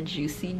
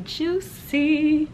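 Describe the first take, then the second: First: Said in the usual way. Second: High, drawn-out JUICY; playful emphasis. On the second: Real, not acted. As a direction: stretch "juicy" out high and teasing. Repeats the word for effect.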